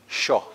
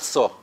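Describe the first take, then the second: First: It begins with a sh sound. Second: It begins with a plain s sound. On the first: The speaker calls it right. "sho, right?" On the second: The speaker calls it wrong. "Not so"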